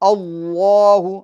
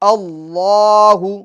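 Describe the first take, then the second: First: The heavy vowel is said with strongly rounded lips. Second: The heavy vowel is said with only slightly rounded lips. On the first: The speaker calls it wrong. "होठों को इतना ज़्यादा गोल नहीं करना है ... ये गलत है" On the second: The speaker calls it right. "बल्कि"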